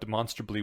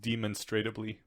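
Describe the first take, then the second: First: The word is said without an extra syllable. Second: The word is said with an extra syllable. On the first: The speaker calls it right. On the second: The speaker calls it wrong.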